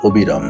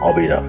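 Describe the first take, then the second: First: The first vowel is a closed o-like sound. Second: The first vowel is an open aw-like sound. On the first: The speaker calls it wrong. "আমি এখানে আটটি ভুল শব্দের উচ্চারণ করেছি। প্রথমটি করেছি অবিরাম" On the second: The speaker calls it right. "অ এর মতোই উচ্চারণ হবে"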